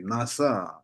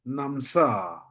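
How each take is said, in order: First: No m sound comes before the s. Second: An m sound comes before the s. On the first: This is the proper reading of the word. The speaker calls it right. "you have to read it properly" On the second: This is a regional, more melodious way of saying it. The speaker calls it wrong. "in Uyghur area"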